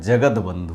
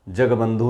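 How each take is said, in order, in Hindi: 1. 'jag' के बाद 'd' की ध्वनि आती है। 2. 'jag' के बाद 'd' की ध्वनि नहीं आती है। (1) "जगद बंधु होता है" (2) "जग बंधु नहीं होता है"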